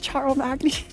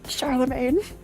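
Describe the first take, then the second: First: The name ends with a spelled-out 'magny' sound. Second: The name ends with a French 'main' sound. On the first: The speaker calls it wrong. "I thought it was Charles Magny" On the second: The speaker calls it right. "It's French"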